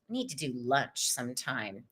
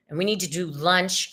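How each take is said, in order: First: A quiet low murmur, like a private note; soft low aside. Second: Said in the usual way. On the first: Acted. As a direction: drop low and soft, almost to herself.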